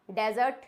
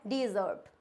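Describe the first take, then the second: First: डेजर्ट starting with "deh"; wrong pronunciation. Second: डेजर्ट starting with "di", lower and softer; correct pronunciation. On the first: Teacher showing the common mistake, डेजर्ट as "dez-urt". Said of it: "ये डेजर्ट नहीं होता है". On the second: Teacher giving the corrected form, डेजर्ट as "di-zurt". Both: Shown as a demonstration.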